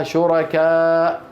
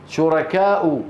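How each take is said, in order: First: شركاء with long aa and a bare glottal stop; stopping form. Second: شركاء ending in a voiced u, shurakaa-u; continued form. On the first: Teacher shows how we stop on it, شركاء without final vowel. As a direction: draw out شركاء, then stop on the hamza. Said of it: "نقف عليها". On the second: Teacher reads it as written, شركاء ending in u. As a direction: say شركاء with final u after the hamza. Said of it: "هكذا كتبت". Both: Shown as a demonstration.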